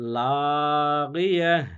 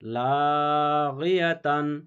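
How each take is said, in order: First: The word ends in a silent 'h' stop. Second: The word ends with a full 'tan' syllable. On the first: The speaker calls it right. "হা সাকিন করে দিবেন" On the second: The speaker calls it wrong. "এখানে গোলতা রয়েছে"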